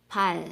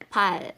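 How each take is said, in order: First: The word ends with an L sound. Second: The word ends with an L sound.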